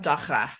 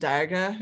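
First: The middle consonant is a guttural, throaty sound. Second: The middle consonant is a plain, non-guttural sound. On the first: The speaker calls it right. "The middle of that word sounds just like a Hebrew letter" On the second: The speaker calls it wrong. "is not daga, as I was saying it"

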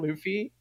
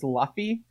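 First: The first vowel sounds like the one in love. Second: The first vowel sounds like the one in laugh. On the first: This is how the name is usually said. "Instead of Luffy" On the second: This is how the name is said in one regional dub. "in the Singapore dub, he's referred to as Luffy"

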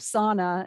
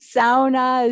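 First: It is said with an American pronunciation. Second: It is said with a Finnish pronunciation.

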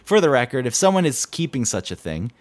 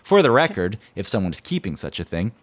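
First: The words are read without the intended rhythm. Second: The words are read with a deliberate, measured rhythm. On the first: The speaker calls it wrong. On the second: The speaker calls it right.

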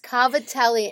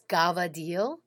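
First: The word is said in full with a final vowel. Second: The word is clipped, ending on the consonant. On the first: "But it's cavatelli" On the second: "and it's gavadil"

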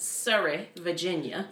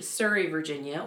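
First: It is said in a thick Southern accent. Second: It is said in a plain, neutral accent.

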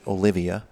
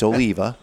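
First: The name has four syllables, o-li-vi-a. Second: The name has three syllables, o-li-va. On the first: The speaker calls it wrong. "mispronounce it and pronounce it Olivia" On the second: The speaker calls it right. "It's Oliva"

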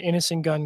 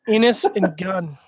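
First: The name is said quickly and run together. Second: The name is said slowly and carefully enunciated. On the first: The speaker calls it wrong. "Stupid Canadians talking too fast" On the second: The speaker calls it right. "Enunciate your values"

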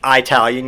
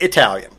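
First: The first syllable sounds like 'eye'. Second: The first syllable sounds like 'ih'. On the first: The speaker calls it wrong. "You don't speak Italian" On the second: The speaker calls it right. "you speak Italian"

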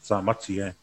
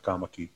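First: The name is said with T sounds. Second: The name is said with K sounds. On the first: "your middle name Tamati" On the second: "could be pronounced Kamaki"

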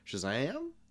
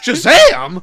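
First: It rises at the end like a question. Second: It is said excitedly, like an exclamation.

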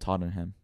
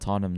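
First: It is pronounced the way non-Londoners say it. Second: It is pronounced the way Londoners say it. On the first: The speaker calls it wrong. "a lot of people that aren't from London, they call them Tottenham" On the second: The speaker calls it right. "I appreciate you calling it Tottenham"

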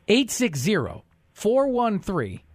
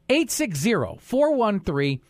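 First: It is said slowly. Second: It is said at normal speed.

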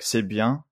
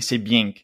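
First: It is said in a standard French accent. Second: It is said in a southern French accent. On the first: "usually you would say like c'est bien" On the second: "but there they say c'est bien, like that"

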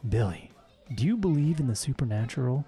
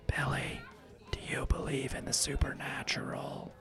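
First: It is spoken in a normal full voice. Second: It is spoken in a low conspiratorial whisper. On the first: The speaker calls it wrong. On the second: The speaker calls it right.

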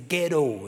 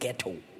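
First: The T in the middle is soft. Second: The T in the middle is clear. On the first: This is how Americans say it. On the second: This is how the speaker's own people say it. "We pronounce the T"

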